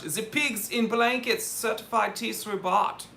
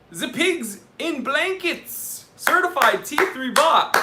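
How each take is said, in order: First: Put-on higher-pitched light German accent at normal volume. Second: Put-on loud, high German-accented announcement, drawn out at the start. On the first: Livestream host thanking a supporter by name in a light mock-German accent. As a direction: toss it off in a playful German accent. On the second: Livestream host announcing a certified bot in a loud mock-German accent. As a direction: shout it out in a hammed-up German accent. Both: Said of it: "say it in a German accent".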